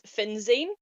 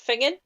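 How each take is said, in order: First: The name is said with a z sound. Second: The name is said with an ng sound. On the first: The speaker calls it wrong. "looks like it's pronounced Finzane" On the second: The speaker calls it right. "but it's pronounced Fingen"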